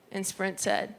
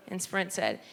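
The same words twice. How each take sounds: The two takes are said the same way.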